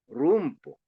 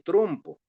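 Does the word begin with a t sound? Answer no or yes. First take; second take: no; yes. First: The word begins with an r sound. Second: The word begins with a t sound. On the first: This imitates a monolingual Quechua speaker's adaptation. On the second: This is the standard Spanish pronunciation. "Dime trompo"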